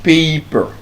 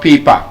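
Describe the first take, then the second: First: "Paper." ending r-coloured, "pay-per"; schwa ending. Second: "paper" said "pepa", with a full "a" at the end; the Nigerian "paper", "pepa"; wrong ending. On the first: Teacher modelling the right "Paper.". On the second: Teacher showing the mistake, "paper" as "pepa". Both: Shown as a demonstration. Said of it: "It's not".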